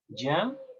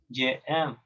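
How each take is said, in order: First: Je loses its vowel and joins aime. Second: Je and aime are said as separate syllables. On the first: The speaker calls it right. "Tú dices j'écoute, j'aime" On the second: The speaker calls it wrong. "ya no dices así"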